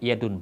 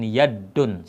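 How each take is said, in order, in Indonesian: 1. Bunyi d pendek dan tunggal. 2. Bunyi d dirangkap dan ditahan lebih lama. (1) "tanpa tasydid" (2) "bukan yadun, salah"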